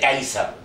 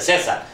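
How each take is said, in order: First: The name is said the Latin way. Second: The name is said the Spanish way. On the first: The speaker calls it right. "se dice Caesar" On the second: The speaker calls it wrong. "en latín no se dice César"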